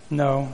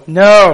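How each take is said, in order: First: Said in the usual way. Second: "No" called out loud and high, as the answer; loud emphatic no. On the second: Shown as a demonstration. Pastor prompts the church to shout no. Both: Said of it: "Y'all supposed to say no".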